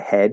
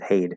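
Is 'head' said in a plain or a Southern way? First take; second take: plain; Southern. First: The word is said with a plain, standard vowel. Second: The word is said with a drawn-out Southern vowel. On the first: "He doesn't say "all in my head."" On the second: "He says "head,""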